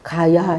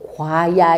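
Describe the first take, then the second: First: The first syllable has no glide: ga. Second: The first syllable has a w-glide: gwa. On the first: This is how people actually say it. "가야 이러죠" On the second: This is how the written character should be read. "과야 이래야 되는데"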